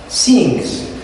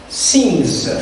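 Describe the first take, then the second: Both takes have the same delivery.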